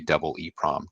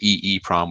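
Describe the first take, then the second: First: The two E letters are read as double E. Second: The two E letters are read out separately. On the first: The speaker calls it right. "we say double EEPROM" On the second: The speaker calls it wrong. "We don't say EEPROM"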